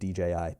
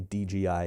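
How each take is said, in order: First: The middle letter is said as J. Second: The middle letter is said as G. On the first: The speaker calls it right. "instead of D J I" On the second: The speaker calls it wrong. "I say D G I instead of"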